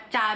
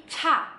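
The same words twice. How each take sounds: First: "ca" with no puff of breath; plain C. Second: "ca" pitched up with a big H; strongly aspirated C. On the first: Teacher contrasting the usual sound, plain C. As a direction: say "ca" as an ordinary Indonesian cha. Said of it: "Beda ya sama ca biasa". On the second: Teacher contrasting with usual C, strong puff. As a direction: puff "ca" hard as "chha". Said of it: "ada haknya banget cara bacanya". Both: Shown as a demonstration.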